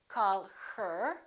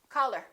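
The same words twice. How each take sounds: First: The h sound in her is pronounced. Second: The h sound in her is dropped. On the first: The speaker calls it wrong. "We don't say" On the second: The speaker calls it right. "We drop the H"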